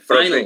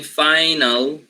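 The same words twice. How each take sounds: First: The l follows the n with no vowel. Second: A full vowel is heard between n and l. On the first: The speaker calls it right. "So I say final" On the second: The speaker calls it wrong. "instead of saying final"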